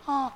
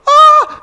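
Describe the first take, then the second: First: Understated startled gasp. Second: Very high, loud shriek of shock; startled scream. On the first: Retold or imitated. Preacher doubting how the servant girl cried out, understated mock gasp. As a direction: imitate her cry, much toned down. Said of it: "I don't know if she went". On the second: Acted. Servant girl finding Peter at the door, startled shriek. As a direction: let out a sudden acted scream.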